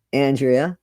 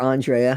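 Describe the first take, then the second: First: Andrea said AN-dree-uh; first pronunciation variant. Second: Andrea said ahn-DRAY-uh; alternative pronunciation. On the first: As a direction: say Andrea with a short flat A and "ee" in the middle. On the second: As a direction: say Andrea with an open "ah" and "ay" in the middle. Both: Shown as a demonstration. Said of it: "however you say it".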